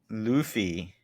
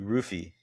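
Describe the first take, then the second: First: The name begins with an L sound. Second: The name begins with an R sound.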